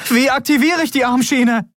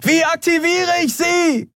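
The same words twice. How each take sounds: First: High, urgent shouted question; panicked, high-pitched call. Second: Very high, drawn-out screamed question; slow, high yell over engine noise; desperate scream. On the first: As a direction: call out desperately over engine noise. Urgent question shouted over engine noise. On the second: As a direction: scream as if tearing your vocal cords. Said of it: "schrie Andriel, dass es ihr fast die Stimmbänder zerriss". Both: A narrator's reading.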